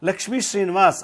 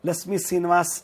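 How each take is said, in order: First: Every consonant cluster is pronounced fully. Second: The consonant clusters are simplified. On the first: The speaker calls it right. "ಅನ್ನೋದಕ್ಕೆ ಬರೋಲ್ಲ" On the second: The speaker calls it wrong. "ಅಂತಾರೆ"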